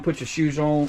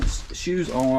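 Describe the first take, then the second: First: Words slurred by a numb face; stiff cold face. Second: Said in the usual way. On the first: Real, not acted. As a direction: talk through a frozen face. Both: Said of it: "my face is so cold I can barely talk".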